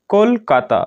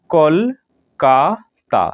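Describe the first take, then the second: First: Said in the usual way. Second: কলকাতা said very slowly as কল-কা-তা, three separate beats; split into syllables. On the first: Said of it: "তিনটি উচ্চারণ অংশে ... ভেঙে ফেলি". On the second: Shown as a demonstration. Teacher breaking কলকাতা into three syllables for students, very slow. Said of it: "তিনটি উচ্চারণ অংশে বা সিলেবেলে ভেঙে ফেলি".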